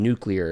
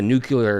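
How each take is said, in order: First: It is said as nu-clear. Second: It is said as nu-cu-lar. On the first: The speaker calls it right. "instead of saying nuclear" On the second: The speaker calls it wrong. "it was a nuclear explosion," instead of saying"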